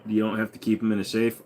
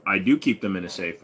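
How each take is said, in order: First: Said in the usual way. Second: "I do keep them in a safe" with do pressed firmly; stress on do. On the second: Shown as a demonstration. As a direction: lean into "do" to contradict the chat.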